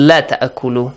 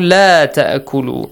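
First: The vowel in la is cut short. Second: The vowel in la is held long. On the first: It urges eating. The speaker calls it wrong. "sometimes you might say it la ta'akulu" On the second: It forbids eating. The speaker calls it right. "So this la is important"

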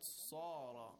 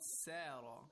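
First: The s sound is heavy with rounded lips. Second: The s sound is light and thin. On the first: The speaker calls it right. "it's sad. Second of all, it's tafkhim. We have to recite with a rounded mouth and a heavy voice" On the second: The speaker calls it wrong. "it's not sara"

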